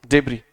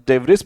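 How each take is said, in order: First: The final s sound is silent. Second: The final s sound is pronounced. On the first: The speaker calls it right. "we should say debris only" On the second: The speaker calls it wrong. "Some of the people actually pronounce this as debris, but this is not debris because I S is not pronounced"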